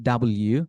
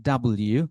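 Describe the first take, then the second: Both takes have the same delivery.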